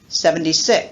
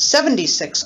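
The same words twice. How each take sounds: First: The stress falls on six. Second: The stress falls on seventy.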